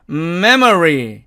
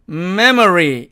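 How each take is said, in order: Both takes have the same delivery.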